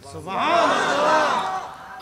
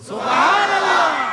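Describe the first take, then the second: First: It is said at normal, softer volume. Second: It is said more loudly.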